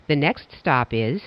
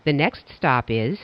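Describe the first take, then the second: No difference in how they are said.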